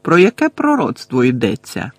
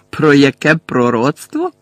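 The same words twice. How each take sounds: First: Said in the usual way. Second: Slow, louder, rising disbelief on про; incredulous repeat. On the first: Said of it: "вів далі Гаррі". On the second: Acted. Bellatrix repeats Harry's question, slow and incredulous. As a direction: drag the echo out in disbelief. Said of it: "перепитала Белатриса".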